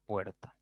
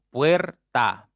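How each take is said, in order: First: Said in the usual way. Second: "Puerta" split into puer - ta, both loud; syllable by syllable. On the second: Shown as a demonstration. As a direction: punch out "Puerta" as two beats, puer, ta. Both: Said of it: "ya tienen dos sílabas".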